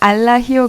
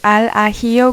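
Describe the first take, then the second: First: The two words are joined into one flow. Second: The two words are said separately, not joined. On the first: The speaker calls it right. "연음해서 알라히오" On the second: The speaker calls it wrong. "그렇게 발음하지 않고"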